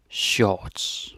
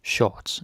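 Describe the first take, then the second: First: Shorts in a Danish accent, R dropped. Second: Said in the usual way. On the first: Shown as a demonstration. Teacher showing the same word with a Danish accent. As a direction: say shorts the Danish way, "shots" with a rounded vowel. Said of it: "But with the Danish accent". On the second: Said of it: "Shorts is the same".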